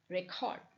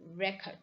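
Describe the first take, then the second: First: The stress is on the second syllable. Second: The stress is on the first syllable.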